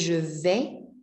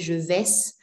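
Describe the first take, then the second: First: The final s sound is silent. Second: The final s sound is pronounced. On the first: The speaker calls it right. "We don't pronounce the S's" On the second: The speaker calls it wrong. "We do not say je vais"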